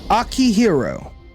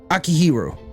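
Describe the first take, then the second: First: The name is said slowly and carefully. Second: The name is said quickly and smoothly. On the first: The speaker calls it wrong. "I'm not pronouncing that correctly" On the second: The speaker calls it right. "Faster pronunciation"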